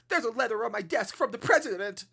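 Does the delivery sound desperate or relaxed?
desperate. It is said with urgent desperation.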